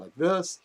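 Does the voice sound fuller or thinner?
fuller. The voice sounds full and resonant. "instead of sounding like this"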